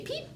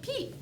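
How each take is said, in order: First: Said in the usual way. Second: Plain. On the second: Shown as a demonstration. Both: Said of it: "they say peep".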